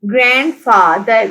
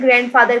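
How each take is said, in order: First: grandfather slowly split as grand-fa-ther; syllable by syllable. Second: Said in the usual way. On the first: Shown as a demonstration. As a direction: sound out grandfather in separate beats. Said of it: "three syllables हैं grandfather के". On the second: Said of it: "three syllables हैं".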